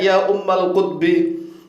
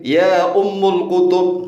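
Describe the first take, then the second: First: The words end in 'ummal' and 'kutbi'. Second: The words end in 'ummul' and 'kutub'. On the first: The speaker calls it right. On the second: The speaker calls it wrong.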